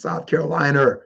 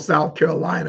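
First: It ends with an added R sound. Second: It ends on a plain open vowel.

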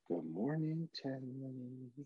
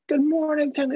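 First: It is said quietly and cautiously. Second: It is said loudly and excitedly.

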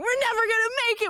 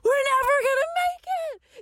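First: It is said plainly, without drama. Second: It is said with exaggerated drama.

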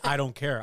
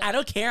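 First: It is said in a plain, natural voice. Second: It is said in an exaggerated, mocking voice. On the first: This is how he really said it. The speaker calls it right. "I said" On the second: This is how she made him sound. The speaker calls it wrong.

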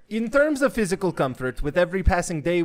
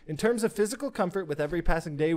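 First: It is read in a put-on Russian accent. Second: It is read in the speaker's normal accent.

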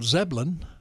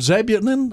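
First: The name is said with two short syllables. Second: The name is said with three full syllables. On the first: The speaker calls it right. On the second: The speaker calls it wrong.

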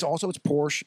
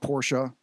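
First: The name is said the plain American way. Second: The name is said the German, European way. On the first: The speaker calls it right. "And it's Porsche" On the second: The speaker calls it wrong.

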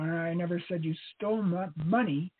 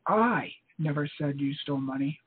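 First: The stress is on "money". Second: The stress is on "I".

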